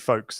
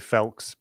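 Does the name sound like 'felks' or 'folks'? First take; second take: folks; felks. First: The vowel is long, like in 'oak'. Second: The vowel is short, like in 'elk'. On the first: This is the English form of the name. "it's definitely folks, the English or anglicized version of it" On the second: This is the Welsh form of the name. "There's there's a Welsh version of it"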